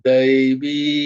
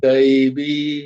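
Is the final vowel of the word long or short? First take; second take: long; long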